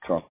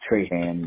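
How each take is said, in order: First: The name is said with a French pronunciation. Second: The name is said with an American pronunciation. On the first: This is the family's own way of saying it. The speaker calls it right. "but it's Trahan" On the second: This is how most people commonly say it. The speaker calls it wrong. "People say Trahan"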